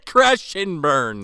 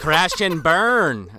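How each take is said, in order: First: Jean-Claude impression. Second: Slow, drawn-out Belgian accent attempt; weak Van Damme Belgian accent; Jean-Claude impression. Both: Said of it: "I can't do a good, uh, Jean-Claude".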